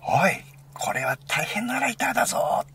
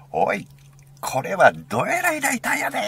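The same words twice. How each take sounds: First: High, loud exclamation without dialect; imitated shout in standard Japanese. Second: High, loud Osaka-dialect exclamation; Osaka dialect shout. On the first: Retelling friend's reaction to the lighter, imitated standard-Japanese shout. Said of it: "って叫んだんだよな". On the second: Retold or imitated. Imitating friend amazed by the lighter, Osaka dialect shout. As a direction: holler it in broad Osaka dialect. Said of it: "大阪弁で".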